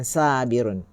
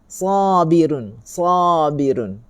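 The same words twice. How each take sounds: First: "sabirun" with a thin, light sa; teacher shows the mistaken thin "sabirun"; thin wrong sabirun. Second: "Sabirun." with a thick, open-mouthed sa, said slowly; teacher drawing out a heavy "Sabirun."; full, heavy sabirun. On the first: Teacher shows students the wrong thin reading. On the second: Teacher models the correct heavy letter to students, drawn out slowly. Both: Shown as a demonstration. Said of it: "bukan sabirun".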